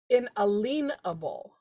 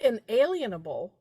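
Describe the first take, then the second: First: The middle of the word sounds like 'lien'. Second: The middle of the word does not sound like 'lien'. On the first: The speaker calls it right. "if you think of a lien" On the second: The speaker calls it wrong. "it's not inalienable"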